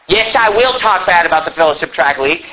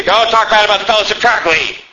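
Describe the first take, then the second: First: Said in the usual way. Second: Lightly voiced complaining objector; a touch of mock protest. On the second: Imagined listener defending the Tract League, mild mock protest. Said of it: "You say".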